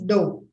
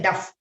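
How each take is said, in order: First: The word ends with a long vowel. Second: The word ends with an f sound. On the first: The speaker calls it right. "it is dough" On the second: The speaker calls it wrong. "Don't say duff"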